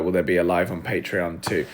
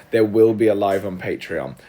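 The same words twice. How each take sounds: First: Said in the usual way. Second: "will" pressed firmly in a reassuring answer; emphatic "will", confirming it; stress on "will". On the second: Real, not acted. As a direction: lean on the word "will".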